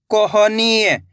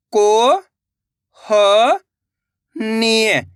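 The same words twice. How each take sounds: First: Said in the usual way. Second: कोहनीय, stretched slowly syllable by syllable. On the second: Shown as a demonstration. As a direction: break कोहनीय, into slow separate syllables. (धीरे-धीरे अक्षर तोड़कर) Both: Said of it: "तो मिलके बन जाएगा".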